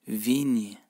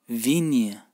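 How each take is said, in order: The two takes are said the same way.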